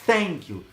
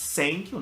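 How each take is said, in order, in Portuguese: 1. Thank começa com um som de th, com a língua entre os dentes. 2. Thank começa com um som de s simples. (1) "um som de S com a língua entre os dentes" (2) "que é um S mesmo"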